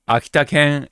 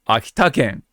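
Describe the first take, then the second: First: It has the pitch pattern meaning the dog. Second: It has the pitch pattern meaning the prefecture. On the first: It names the dog breed. "Akita-ken is the dog" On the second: It names the prefecture. "Akita-ken is the prefecture"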